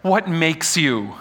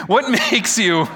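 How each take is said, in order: First: Said in the usual way. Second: Breaks into a laugh mid-question. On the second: Real, not acted. Preacher fumbling the line, laughing at himself. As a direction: restart the question and laugh through it. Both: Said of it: "I can't do this again".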